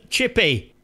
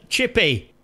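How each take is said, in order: Both takes have the same delivery.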